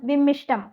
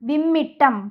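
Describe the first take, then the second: First: The middle consonant is pronounced as sht. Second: The middle consonant is pronounced as tt. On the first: The speaker calls it wrong. "നമ്മൾ പൊതുവെ കേൾക്കുന്നത് നമ്മൾ വിമ്മിഷ്ടം എന്നാണ്" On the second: The speaker calls it right. "ശരിയായിട്ടുള്ളത്? വിമ്മിട്ടമാണ്"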